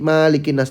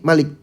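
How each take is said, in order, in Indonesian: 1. Vokal pertama diucapkan panjang. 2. Vokal pertama diucapkan pendek. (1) "bacanya panjang" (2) "gara-gara teman bacanya pendek"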